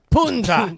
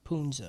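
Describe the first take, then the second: First: Louder, higher burst on the word; hammed-up one-word yell; mock curse shout. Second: Low, soft one-word echo; soft, dropped-down repeat; low aside. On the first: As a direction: shout it like casting a silly curse. Mimics the favourite curse word. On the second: Real, not acted. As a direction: say it quietly, almost to yourself. Same word said back casually.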